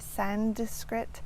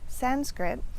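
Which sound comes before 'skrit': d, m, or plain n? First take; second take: d; plain n. First: A d sound is added before skrit. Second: A plain n sound comes before skrit. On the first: The speaker calls it wrong. "adding a D in there" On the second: The speaker calls it right. "So it's Sanskrit"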